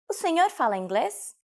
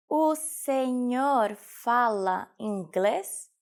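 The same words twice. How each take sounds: First: Said in the usual way. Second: Very slow, every word separated; slow teaching repetition. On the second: Shown as a demonstration. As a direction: stretch "O senhor fala inglês" out for learners. Teacher repeats phrase slowly for learners. (slowed-down language-lesson model)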